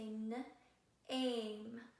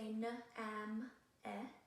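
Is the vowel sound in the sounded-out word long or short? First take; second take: long; short. First: Long a, with no final e sound. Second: Short a, with the final e sounded separately. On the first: The speaker calls it right. "We say" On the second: The speaker calls it wrong. "We don't say"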